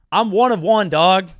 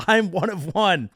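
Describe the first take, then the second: First: Loud, punchy catchphrase opener; hype shout. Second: Said in the usual way. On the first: Acted. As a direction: bark it out like a hype intro.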